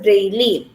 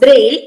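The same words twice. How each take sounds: First: It ends with an extra vowel sound. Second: It ends with no extra vowel sound. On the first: The speaker calls it wrong. "instead of braille" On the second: The speaker calls it right. "the e sound is silent"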